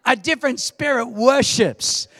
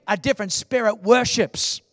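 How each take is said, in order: First: Louder, insistent restatement; repeated louder for response. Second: Said in the usual way. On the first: Shown as a demonstration. Preacher repeating point after a weak crowd response. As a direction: say it again to wake them. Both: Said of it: "Thank you for the underwhelming response".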